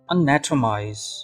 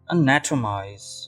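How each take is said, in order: The two takes are said the same way.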